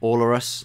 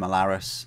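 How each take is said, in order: First: The ending sounds like the word walrus. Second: The ending does not sound like walrus. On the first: "To me that just sounds like walrus" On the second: "I want to call him Alaris"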